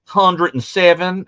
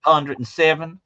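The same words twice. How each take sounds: First: High, slow Texas local voice; local drawl. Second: High, lightly voiced Texas local; a hint of a Texas drawl; Texan voice. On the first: Retold or imitated. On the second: Shown as a demonstration. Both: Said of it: "do that voice again".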